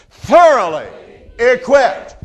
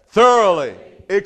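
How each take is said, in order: First: It is said very loudly. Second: It is said at normal volume.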